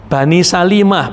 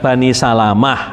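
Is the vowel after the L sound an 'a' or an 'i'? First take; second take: i; a. First: The vowel after the L is an 'i'. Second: The vowel after the L is an 'a'. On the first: The speaker calls it right. "bikasril lam, dengan mengkasrohkan lam" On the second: The speaker calls it wrong. "bukan Bani Salamah"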